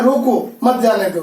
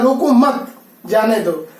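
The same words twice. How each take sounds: First: रोको set apart, then मत जाने दो as one phrase; pause after रोको. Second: रोको मत joined, a break, then जाने दो falling; pause after मत. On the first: Teacher reads the first comma example, pausing after रोको. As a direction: break right after रोको, keeping मत with जाने दो. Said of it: "पहला है ... दूसरा है". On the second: Teacher reads the second comma example, pausing after मत. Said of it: "दूसरा है". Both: Shown as a demonstration.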